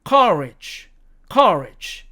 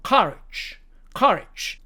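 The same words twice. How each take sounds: First: "courage" with an r-coloured er vowel; American pronunciation. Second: "courage" with an open uh before r; British pronunciation. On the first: Teacher modelling the second word, American pronunciation. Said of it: "미국식 발음으로는". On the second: Teacher showing the vowel shift, British pronunciation. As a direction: say "courage" as "kuh-rij". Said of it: "살짝 변해서". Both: Shown as a demonstration.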